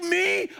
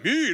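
First: It sounds amazed and disbelieving. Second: It sounds proud and boastful.

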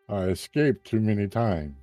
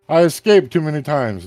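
First: It is said without the intended character voice. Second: It is said in a put-on character voice. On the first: The speaker calls it wrong. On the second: The speaker calls it right.

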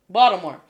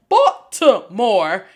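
First: The middle consonant sounds like a d. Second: The middle consonant is a clear t sound. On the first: This is how locals say the name. "Everyone pronounces it with a D" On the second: This is how outsiders say the name. "nobody that's from there says Baltimore"

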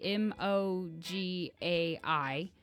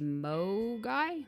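First: It is spelled out letter by letter. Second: It is said as one word. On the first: "some people seem to say M-O-G-A-I" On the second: "some people seem to say mo guy"

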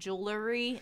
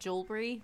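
First: An extra vowel sound comes before the final 'ry'. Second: No extra vowel sound comes before the final 'ry'. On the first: The speaker calls it wrong. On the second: The speaker calls it right.

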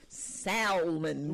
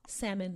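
First: The L sound is pronounced. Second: The L sound is silent. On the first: The speaker calls it wrong. "With the L" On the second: The speaker calls it right. "teaching me that it was salmon"

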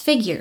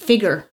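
First: The ending has a y sound, like 'gyer'. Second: The ending has no y sound, like 'ger'.

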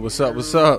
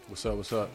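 First: It is said with high energy. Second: It is said with low energy.

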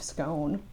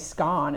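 First: The word is said in a non-British pronunciation. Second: The word is said in a British pronunciation.

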